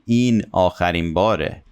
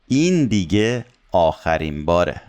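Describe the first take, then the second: First: Said in the usual way. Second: Opening این stressed with a pitch peak; quick line, leaning on این at the start; emphasize it, punching این then falling away; emphatic statement. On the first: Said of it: "So you can say". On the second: Shown as a demonstration. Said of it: "we use دیگه to emphasize".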